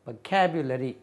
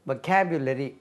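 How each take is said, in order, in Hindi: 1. पहले अक्षर में 'uh' स्वर है। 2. पहले अक्षर में 'uh' स्वर है।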